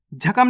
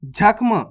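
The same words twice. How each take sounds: First: जख्म opened up as "ja-kam"; wrong full-letter reading. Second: जख्म as "jakh-m"; correct half-letter reading. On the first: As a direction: put a vowel between kh and m in जख्म. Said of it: "नहीं पढ़ना". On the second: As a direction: run kh straight into m in जख्म. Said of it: "जख्म नहीं पढ़ना". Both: Shown as a demonstration.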